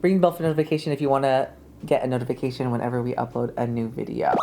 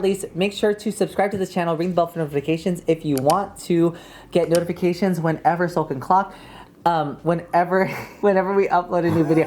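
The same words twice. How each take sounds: First: Fast. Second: Rapid-fire run-on plug; talking really fast. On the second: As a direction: rush the words together. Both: Shown as a demonstration. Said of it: "I was talking really fast".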